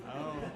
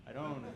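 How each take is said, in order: Both takes have the same delivery.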